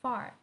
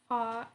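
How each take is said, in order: First: The R at the end is clearly pronounced. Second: The R at the end is left silent. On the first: "I'm saying far" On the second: "they say far and don't pronounce R"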